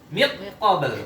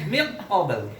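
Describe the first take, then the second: First: The n merges fully into the q sound. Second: The same.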